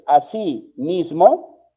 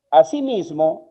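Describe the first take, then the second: First: "así mismo" said slowly as two separate words; "así", a short break, then "mismo"; split into two words. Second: "Asimismo" said as one unbroken word; slow, deliberate "Asimismo" without a break; run together as one word. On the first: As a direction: put a clear gap between "así" and "mismo". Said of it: "si tú escribes así mismo". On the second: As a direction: say "Asimismo" joined up, with no gap inside. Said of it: "si va todo junto". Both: Shown as a demonstration.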